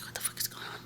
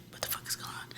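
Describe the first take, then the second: First: Hushed, breathless what-the-fuck whisper; whispered shock. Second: Hushed repeat of the stunned question; whispered shock. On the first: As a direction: whisper it in retold disbelief. Retold shock, dog behind her. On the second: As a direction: whisper it again, still in disbelief. Repeats the shocked retold quote. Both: Retold or imitated.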